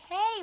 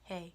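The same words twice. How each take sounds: First: It is said in a friendly tone. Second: It is said in a flat, mellow tone.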